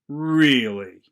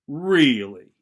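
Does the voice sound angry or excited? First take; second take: angry; angry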